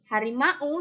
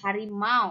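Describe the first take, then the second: First: The ending is two separate vowels, a then u. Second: The ending glides smoothly as one diphthong sound. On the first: The speaker calls it wrong. "itu bukan harimau" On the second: The speaker calls it right. "tetapi harimau"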